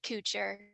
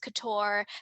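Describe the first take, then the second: First: It is said the way the family says it. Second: It is said like the French fashion word. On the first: This is how the name was said at home. "he called it couture" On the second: This is how the fashion world says it. "when I went into fashion school ... it all of a sudden was couture"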